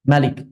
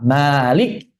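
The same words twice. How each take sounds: First: The first vowel is kept short. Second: The first vowel is drawn out long. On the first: "rakaat kedua Malik" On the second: "rakaat pertama Malik"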